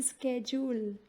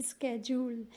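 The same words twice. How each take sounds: Both takes have the same delivery.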